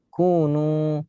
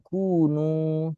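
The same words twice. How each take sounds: First: The nu syllable is said without nasal resonance. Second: The nu syllable is said with nasal resonance. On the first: The speaker calls it right. "Kunu tanpa sengau" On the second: The speaker calls it wrong. "jangan kunu"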